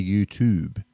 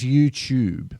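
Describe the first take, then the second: First: YouTube with an American toob; slow YouTube, toob not choob. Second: Slow YouTube, tube as choob; Aussie YouTube. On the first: Retold or imitated. Mimicking the kids' American YouTube. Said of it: "fully infected by American". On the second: Shown as a demonstration. Dad teaching the Aussie YouTube, slow. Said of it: "like a tube".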